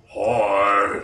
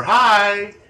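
First: Cookie Monster hybrid. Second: Put-on high, loud childlike greeting; little kid. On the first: Retold or imitated. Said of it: "Cookie Monster crossed with something else". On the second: Imitating a child heard on evidence tape, little kid voice. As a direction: call it out in a small child's pitch. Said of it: "You hear a little kid go".

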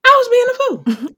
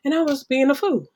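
First: High, loud self-mocking declaration; emphatic. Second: Said in the usual way. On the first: Real, not acted. To the host about her past self, a loud high admission. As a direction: call herself out, loud and high.

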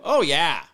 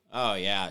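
First: Eager high Oh, yeah; "Oh, yeah" bursts out high and loud; mock-eager agreement. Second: Said in the usual way.

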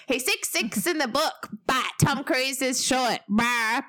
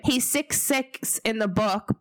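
First: Higher, whiny mock fan; sulky complaining fan, pitched up. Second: Put-on Kiwi accent. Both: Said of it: "but I sounded so Kiwi then".

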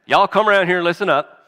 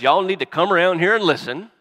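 First: Faster, louder, higher Southern call; Southern accent. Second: Put-on Jacob as a Southern granddad calling his boys; Southern accent. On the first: Pretend. Jacob summoning his sons in a hammed-up Southern accent. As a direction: holler it like a Southern dad rounding up his kids. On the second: Jacob imagined calling his sons in a Southern accent. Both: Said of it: "if he had an accent like that".

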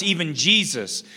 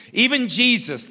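First: Said in the usual way. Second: "even" lifted high on the repeat; stress on even. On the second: Shown as a demonstration. Pastor to congregation, stress on "even". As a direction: hit "even" harder the second time.

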